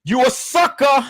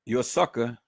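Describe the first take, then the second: First: High-pitched taunt; called-out insult. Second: Soft, low-key repeat of a jab; muted insult. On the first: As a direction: throw it out high, like a jeer. Insult called out, then repeated low. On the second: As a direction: drop it quietly as a settled verdict. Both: Real, not acted.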